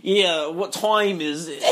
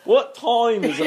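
First: Slow, exaggerated northern accent. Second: Higher-pitched mock northern accent. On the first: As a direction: tease a friend with a drawn-out northern accent. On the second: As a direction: imitate a friend's northern accent, half laughing. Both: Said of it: "very northern".

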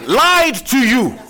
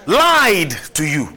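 First: "lied" cried out high and loud, slowly; stress on lied. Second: "Lied" pressed firm and slow at normal pitch; stress on lied, lower. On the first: Pastor warning the church, "lied" cried out high. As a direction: hit "lied" high and hard. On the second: Pastor repeating the warning, "Lied" pressed firm and low. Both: Shown as a demonstration.

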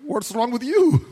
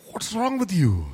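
First: Snapping back. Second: Lightly voiced wife, exasperated; a hint of the wife asking what's wrong; wife scolding her moody husband, lightly imitated; mimicking wife. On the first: Retold or imitated. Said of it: "And I'm like". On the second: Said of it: "She's like".

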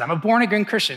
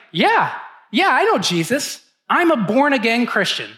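First: Said in the usual way. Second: Eager and bright, a bit higher and louder; a proud new believer who knows the answer; retold excitement; excited. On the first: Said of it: "That's what I said". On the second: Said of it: "I was kind of excited".

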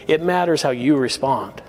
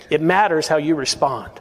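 No difference in how they are said.

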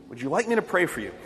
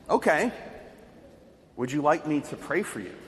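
First: Said in the usual way. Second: Softer, gentle, unbothered offer to pray; calm reply. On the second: Retold or imitated. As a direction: answer calmly, no fear at all. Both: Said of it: "he replied calmly".

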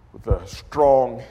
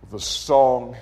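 First: Slow with strong drawn out; stress on strong. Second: Said in the usual way. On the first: Real, not acted. Preacher corrects himself, slowing onto strong. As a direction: lean hard on strong.

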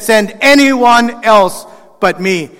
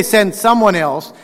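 First: Slow, pleading, with anyone leaned on hardest; stress on anyone. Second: Said in the usual way. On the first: Shown as a demonstration. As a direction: drag it out and press on anyone. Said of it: "He said". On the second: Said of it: "he didn't say".

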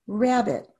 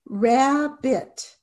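First: Said in the usual way. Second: Rab-bit, each syllable tapped apart. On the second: Shown as a demonstration. Teacher tapping out syllables for students, slow and separated. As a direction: tap out "Rabbit" syllable by syllable, slowly. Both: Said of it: "And you tap it out".

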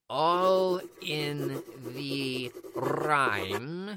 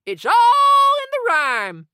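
First: Deep, slow, echoing repeat; echoing whisper. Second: Loud, slow, drawn-out declaration; emphatic. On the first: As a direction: let it ring like an echo. Echoing mystic repeat with music. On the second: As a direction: proclaim it grandly. Teacher stressing a magic rule. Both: Acted.

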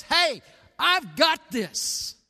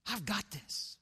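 First: Loud, high, slow declaration; raised voice taking charge; emphatic assurance. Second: Soft, dropped-volume repeat; hushed, confident aside; quiet assurance. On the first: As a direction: proclaim it firmly, stretching each word. Voicing Jesus reassuring the church. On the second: Same assurance repeated, much softer. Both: Acted.

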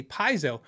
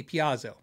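First: Paizo in two syllables, PIE first. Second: Piazzo in three syllables, stress on AH; Piazzo as pee-AH-zo. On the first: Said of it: "Ninety percent of the time that it comes out". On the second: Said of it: "That's the way I say it". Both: Shown as a demonstration.

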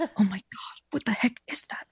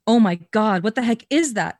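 First: Hushed whisper, calm but alarmed. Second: Louder exclaimed take, not a whisper; wrongly loud. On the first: Redoing the friend's line as a calm whisper. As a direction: whisper it steadily, alarm underneath. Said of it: "he whispered calmly, but alarmed". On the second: Reading a friend's line, loudly exclaimed by mistake. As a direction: blurt it out aloud instead of whispering. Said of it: "Okay, I did that wrong". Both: Shown as a demonstration.

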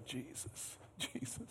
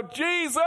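First: Breathy whispered Jesus, barely audible. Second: High pleading cry of Jesus. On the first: Shown as a demonstration. Preacher showing the quiet way to call Jesus, whispered. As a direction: whisper his name like a private prayer. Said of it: "Or maybe it's this way". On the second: Retold or imitated. Preacher showing how he cries to Jesus, pleading cry. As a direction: call out his name, pleading. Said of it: "I just cry and go".

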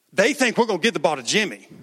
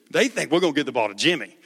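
First: A hint of a coach plotting the play. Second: Quick rushed retelling of the coach line; fast repeat. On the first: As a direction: coach huddling his players, lightly voiced. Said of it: "And he goes". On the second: Shown as a demonstration. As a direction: rattle it off fast.

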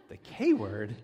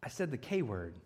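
First: The K word lifted into a puzzled rising question; dad startled by his son's answer, rising; surprised echo. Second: Put-on small, hushed admission from a guilty kid; sheepish quiet confession. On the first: Retold or imitated. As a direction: repeat it back in disbelief. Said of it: "dad's reply". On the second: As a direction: mumble it like a kid owning up. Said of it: "And he says".

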